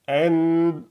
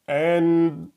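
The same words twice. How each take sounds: First: The n is cut off and muffled. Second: The n is cut off and muffled.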